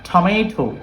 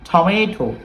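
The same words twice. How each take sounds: First: The first t has a puff of air. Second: The first t has a puff of air.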